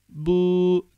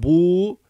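First: The vowel lies between u and ü. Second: The vowel is a back rounded u. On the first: The speaker calls it right. "U, Ü arası okumamız lazım" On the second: The speaker calls it wrong. "ne bu"

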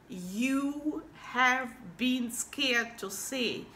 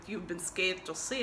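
First: 'You have' is said as two full words. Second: 'You have' is contracted to one syllable.

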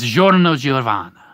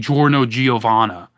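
First: The name is said with a lively Italian pronunciation. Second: The name is said with a flat English pronunciation. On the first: The speaker calls it right. "It's Giorno Giovanna. ... that's how you say it" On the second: The speaker calls it wrong. "You don't say Giorno Giovanna"

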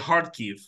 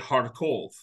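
First: The last syllable has an 'i' vowel. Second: The last syllable has an 'o' vowel. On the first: This is the Ukrainian form of the name. "Like in Ukrainian, you say Kharkiv" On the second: This is the Russian form of the name. "In Russian, they say Kharkov"

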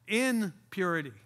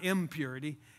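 First: It is said as two words, in purity. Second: It is said as one word, impurity. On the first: Acting with purity. The speaker calls it right. "I have to be careful how the prefix all these words" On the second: Uncleanness. The speaker calls it wrong.

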